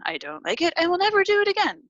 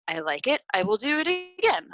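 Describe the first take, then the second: First: Acted refusal leaping high and louder on "never"; quick, high-pitched automatic no; programmed refusal. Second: Lightly acted approval, rising high on "again"; programmed approval. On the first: Acting out a pre-programmed negative response. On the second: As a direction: voice an automatic yes, pitching up at the end. Acting out a pre-programmed positive response.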